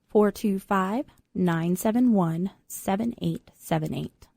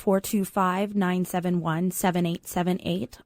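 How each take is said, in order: First: It is said more slowly. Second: It is said at normal speed.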